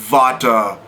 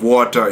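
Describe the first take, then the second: First: The word begins with a V sound. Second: The word begins with a W sound. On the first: It reflects a German speaker's accent. The speaker calls it wrong. "W's are pronounced as V's" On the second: It is the standard English pronunciation. The speaker calls it right. "instead of"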